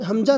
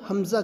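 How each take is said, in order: First: The middle consonant is a j sound. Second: The middle consonant is a z sound. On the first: The speaker calls it wrong. "हम हमजा नहीं कहेंगे" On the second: The speaker calls it right. "हमज़ा कहेंगे"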